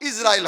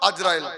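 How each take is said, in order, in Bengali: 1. নামটি 'i' স্বরধ্বনি দিয়ে শুরু। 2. নামটি 'a' স্বরধ্বনি দিয়ে শুরু। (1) "বাট ইসরাইল হবে কথাটা। কারণ ... প্রথম অক্ষর হবে জের" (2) "নট আজরাইল"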